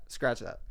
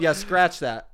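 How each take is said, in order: First: Said in the usual way. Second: Louder, laughing retraction. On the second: Real, not acted. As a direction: laugh it off while taking it back.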